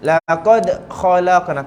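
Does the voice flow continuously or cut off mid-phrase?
cut off. The voice stops abruptly after the bounced letter. The speaker calls it wrong. "Tak nak"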